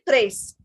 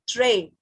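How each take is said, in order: First: The final S sound is pronounced. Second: The final S sound is silent. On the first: The speaker calls it wrong. "it should be trace because S is coming" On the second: The speaker calls it right. "But we are pronouncing it tray"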